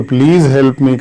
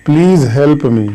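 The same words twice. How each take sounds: First: Said in the usual way. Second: Slow example. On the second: Shown as a demonstration. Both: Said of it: "तो please help me का जब passive voice".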